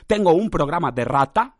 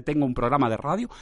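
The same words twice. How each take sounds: First: "rata" spoken clearly in place of "radio". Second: Said in the usual way. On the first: Shown as a demonstration. Podcaster showing the slip, "rata" said deliberately. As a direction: say "rata" with a hard final t-a. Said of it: "en vez de tengo un programa de radio". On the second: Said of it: "en vez de".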